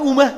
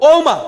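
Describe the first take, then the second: First: The first vowel is a 'u' sound. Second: The first vowel is an 'o' sound. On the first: The speaker calls it wrong. "আমরা বলি উমা" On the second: The speaker calls it right. "উ উ না, এটা হবে কি ও"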